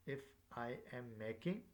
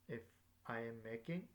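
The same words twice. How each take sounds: The two takes are said the same way.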